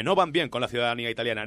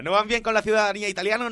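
First: Said in the usual way. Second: High, quick mock indignation; mocking repeat. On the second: Host scoffing at Monti's claim, mock indignant. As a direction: throw the claim back in a higher, scoffing voice.

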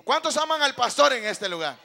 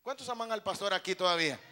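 First: Much louder, challenging call to the room; rousing shout. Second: Said in the usual way. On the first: Real, not acted. Preacher asks congregation who loves the pastor, rousing shout. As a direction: shout it out for a bigger response. Asks again after a weak response.

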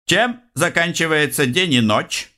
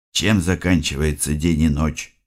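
First: High-pitched teasing riddle; secretary voice, high. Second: Said in the usual way. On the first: Acted. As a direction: ask it like a gleeful quizmaster.

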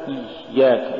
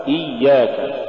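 First: إياك with breath hissing through the doubled ي; faulty ya. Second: Said in the usual way. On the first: Shown as a demonstration. Teacher showing a recitation error, airy ya in إياك. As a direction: devoice the يّ of إياك into air. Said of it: "تقرأ لحنا". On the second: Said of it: "والصواب".

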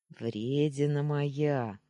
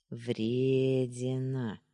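First: Slow, contented purr on Вредина моя; pleased purr. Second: Drawn out very slowly, singsong; singsong drawl. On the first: Boyfriend fondly teasing his girl on the phone, slow pleased purr. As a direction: savour Вредина моя like a happy cat. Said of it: "довольно проурчал Даня". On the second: Boyfriend teasing girlfriend on the phone, slow singsong drawl. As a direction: stretch the word Вредина into a slow lilting tease. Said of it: "нараспев протянул он". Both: Acted.

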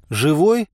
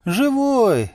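First: «Живой?» with a rising tune; short rising question on «Живой?». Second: «Живой!» high, then falling; emphatic high-pitched «Живой!» that drops; confirming exclamation. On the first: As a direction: ask «Живой?», pitch climbing at the end. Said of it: "спросил я". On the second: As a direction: answer «Живой!» on a high, stretched note. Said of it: "кивнул Саша". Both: A narrator's reading.

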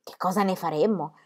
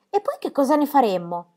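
First: Said in the usual way. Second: Tommy asking. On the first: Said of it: "Pippi repeats the question". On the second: A narrator's reading. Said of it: "disse Tommy".

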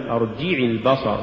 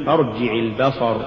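First: ارجع البصر with too much stress on the jim; ارجع, accent shifted onto جِ; overstressed jim. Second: Said in the usual way. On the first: Shown as a demonstration. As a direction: punch the جِ in ارجع. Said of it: "ولا تقل". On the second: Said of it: "قل".

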